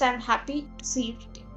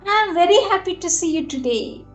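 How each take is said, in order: First: It is said plainly, without emotion. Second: It is said with strong, heartfelt emotion.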